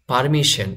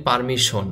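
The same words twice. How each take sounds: First: পারমিশন as par-mi-SHEN; পারমিশন ending in -shen, not -shon; correct pronunciation. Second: পারমিশন as par-mi-SHON; Bengali-style পারমিশন ending in -shon; everyday local pronunciation. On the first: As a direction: say পারমিশন with e in the last syllable. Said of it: "আমরা বলি পারমিশন". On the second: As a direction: say পারমিশন with a round o at the end. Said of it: "আমরা বলি". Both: Shown as a demonstration.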